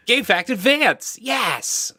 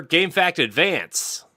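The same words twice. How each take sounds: First: Very high, hammed-up slow holler; terrible Ed impression. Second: High, drawn-out segment call; segment announcer. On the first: Host badly imitating absent co-host Ed, hammed-up high cheer. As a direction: badly mimic an over-the-top segment host, higher and louder. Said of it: "that was a really terrible Ed impression". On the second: Retold or imitated. Host trying out Ed's usual segment intro, high announcer call. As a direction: announce it slowly with showy high pitch. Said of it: "How does, how does that usually say it?".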